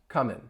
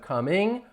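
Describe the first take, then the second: First: The word ends with a plain n sound. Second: The word ends with a full ng sound. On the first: "I'm going to drop that g" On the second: "if I say the ing coming and you hear that ing sound"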